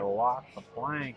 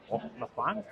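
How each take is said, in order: First: It is said in a Southern American accent. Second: It is said in a Scottish accent. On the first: "I can do like a southern pirate" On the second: "Or a Scottish pirate"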